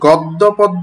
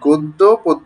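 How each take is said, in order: First: The first vowels are an open 'aw' sound. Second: The first vowels are a rounded 'o' sound. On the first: The speaker calls it wrong. "উচ্চারণটা কিন্তু গদ্য পদ্য নয়" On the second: The speaker calls it right. "তখন উচ্চারণটি ও এর মতো হয়"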